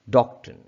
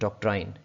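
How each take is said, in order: First: It is said in a British accent. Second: It is said in a South Asian accent.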